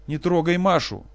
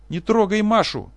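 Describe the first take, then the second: First: High, loud cry; father screaming to protect Masha; desperate scream. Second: Very high, loud, slow scream; father screaming to protect Masha; frantic scream. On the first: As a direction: scream it once more. Professor screams again. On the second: Professor screams. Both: Acted.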